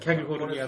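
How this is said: The word begins with a palatalized 'kya' sound. This reflects a regional accent. "わざわざキャリフォルニアと"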